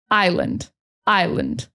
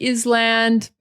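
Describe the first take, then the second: First: "Island" said as eye-lund; correct island. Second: "island" said as iz-land; mispronounced island. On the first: Teacher showing island said fast, eye-lund. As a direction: silent s in "Island", weak second syllable. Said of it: "when we say it fast, it's like lend". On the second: Teacher showing what the spelling looks like, iz-land. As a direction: sound the s in "island". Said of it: "it looks like island". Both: Shown as a demonstration.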